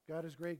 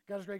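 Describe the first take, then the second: First: It is spoken at an ordinary, unhurried pace. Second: It is rattled off very quickly.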